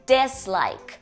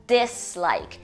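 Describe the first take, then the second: Both takes have the same delivery.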